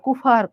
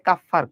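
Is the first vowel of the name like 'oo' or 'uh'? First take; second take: oo; uh. First: The name is said like 'koofa'. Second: The name is said like 'kuffar'. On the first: The speaker calls it wrong. "কুফা না।" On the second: The speaker calls it right. "এটা আসলে কাফফার কোষ।"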